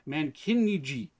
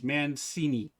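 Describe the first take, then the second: First: The consonant after 'Man' is a k sound. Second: The consonant after 'Man' is an s sound. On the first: The speaker calls it wrong. "If I was going to go with uh, phonetically" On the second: The speaker calls it right. "like uh, Cincinnati, right, where you have the C I N"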